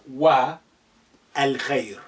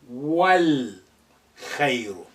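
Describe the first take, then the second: First: The vowel before the L is pronounced separately. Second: The vowel before the L is silent. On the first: The speaker calls it wrong. "not wa al khair" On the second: The speaker calls it right. "that a will be suppressed. The a now become silent"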